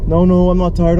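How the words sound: The voice is low and deep. The speaker calls it wrong. "not in that deep voice"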